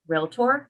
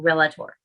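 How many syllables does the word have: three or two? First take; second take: two; three. First: The word is said with two syllables. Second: An extra vowel adds a third syllable. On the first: The speaker calls it right. "it's two symbols" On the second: The speaker calls it wrong. "not realtor"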